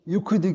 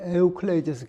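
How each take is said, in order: First: The name is said in its short English-style form. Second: The name is said in its longer original Greek form. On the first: "유클리드라고 하는 건 영어식 발음이고" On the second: "원래 발음을 하면"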